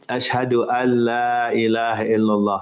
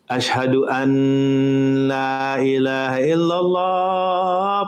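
First: The n merges into the following l. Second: The n is pronounced clearly before la. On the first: The speaker calls it right. "you don't pronounce the noon. You say ashhadu an la" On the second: The speaker calls it wrong. "you hear some people say, ... because they see the noon there"

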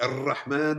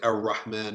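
First: The r is rolled as a long trill. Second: The r is a hard English-style r. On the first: "And we don't trill it, roll it like Ar-Rahman" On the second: "neither the hard R of English, like R. We don't say R. Like we don't say Ar-Rahman"

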